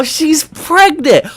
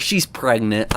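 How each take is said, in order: First: Hammed-up slow gasp of discovery, much higher and louder; mock shock. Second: Said in the usual way. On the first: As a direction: stretch "She's pregnant!" high, loud and slow like a fake epiphany. Sarcastic shock over pregnancy.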